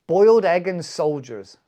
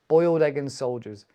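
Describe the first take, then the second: First: Louder "Boiled egg and soldiers" with stress on "Boiled"; announcing the dish. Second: Said in the usual way. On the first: Shown as a demonstration.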